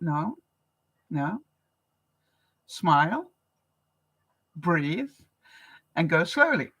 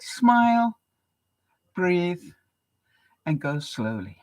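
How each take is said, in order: First: Calming self-talk. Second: Calm quote. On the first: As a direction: talk yourself down gently. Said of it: "and I thought". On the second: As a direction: gently quote the monk's calm advice. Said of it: "and he said". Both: Retold or imitated.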